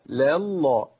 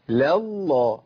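Both takes have the same delivery.

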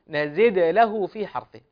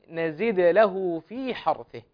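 The two takes are said the same way.

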